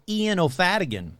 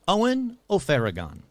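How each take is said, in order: First: The first name sounds like Ian. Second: The first name sounds like Owen. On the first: The speaker calls it wrong. "not how I've been pronouncing it for so many episodes" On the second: The speaker calls it right. "That's right, I said Owen O'Farragon"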